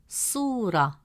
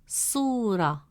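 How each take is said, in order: Both takes have the same delivery.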